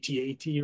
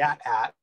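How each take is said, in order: First: It is spelled out letter by letter. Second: It is said as two words, at at. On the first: The speaker calls it wrong. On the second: The speaker calls it right.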